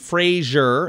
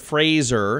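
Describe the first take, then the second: First: The name is said like the TV name Frasier. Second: The name is said to rhyme with razor. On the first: The speaker calls it wrong. "Fans and industry types alike tend to pronounce his name" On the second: The speaker calls it right. "It rhymes with razor"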